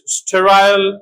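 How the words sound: The last syllable has a full 'eye' vowel.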